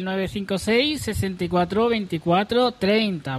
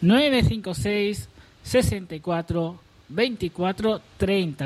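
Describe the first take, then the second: First: It is said at a normal speed. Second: It is said a little more slowly.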